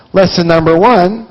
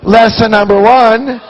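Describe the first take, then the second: First: Said in the usual way. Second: "Lesson number one" slower, louder and higher, each word weighted; emphatic repeat. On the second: Shown as a demonstration. Driving the point home to the audience, slower and louder. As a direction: land "Lesson number one" hard the second time.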